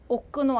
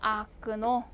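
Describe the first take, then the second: First: The first vowel sounds like 'o'. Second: The first vowel sounds like 'a'. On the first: The speaker calls it wrong. "오끈오 아니고" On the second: The speaker calls it right. "아끈오 하면은"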